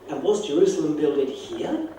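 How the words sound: The stress falls on the word here.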